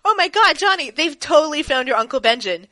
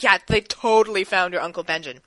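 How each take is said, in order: First: High, loud, breathless news; excited. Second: Said in the usual way. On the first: Retold or imitated. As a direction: blurt it out in a rush of excitement. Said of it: "he's like". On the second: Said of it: "Thorne's like".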